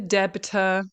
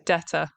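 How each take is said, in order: First: A B sound is pronounced in the middle. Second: No B sound is pronounced in the middle. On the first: The speaker calls it wrong. "people are trying to pronounce the B. They're saying the debtor" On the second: The speaker calls it right. "We don't pronounce the B, we say debtor instead"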